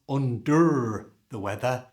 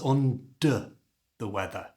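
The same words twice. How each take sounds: First: The -er endings have a full, strong vowel. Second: The -er endings are reduced to a weak schwa. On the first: The speaker calls it wrong. "this is not" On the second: The speaker calls it right. "pronounced with a schwa sound"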